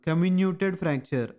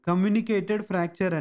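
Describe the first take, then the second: First: The word is said like 'comminuted'. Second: The word is said like 'communicated'. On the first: The speaker calls it right. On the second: The speaker calls it wrong. "దీని ఉచ్చారణ వీళ్ళు తప్పుగా ఇచ్చారు"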